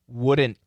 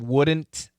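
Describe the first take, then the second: First: The final T is stopped and not released. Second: The final T is fully released.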